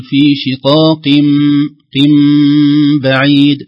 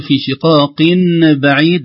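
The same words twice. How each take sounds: First: Very slow, loud شقاق بعيد with a long hummed m; iqlab with ghunna. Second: Loud شقاق بعيد with "-in" before the b; clear nun. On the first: Teacher demonstrating the rule, iqlab with ghunna. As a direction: hum "-im" at the end of شقاق before بعيد. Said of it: "نطلق الشفتين إطباق لطيف". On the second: Teacher showing the reading to replace, clear nun. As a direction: keep an n between شقاق and بعيد. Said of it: "بدل أن نقول". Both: Shown as a demonstration.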